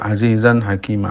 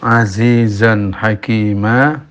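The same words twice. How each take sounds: First: The z sounds are weak and careless. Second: The z sounds are strong and buzzing. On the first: The speaker calls it wrong. "kalau tidak bersungguh-sungguh ya akan keluar azizan hakima" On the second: The speaker calls it right. "pengucapan huruf za perlu keseriusan"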